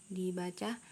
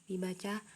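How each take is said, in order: No difference in how they are said.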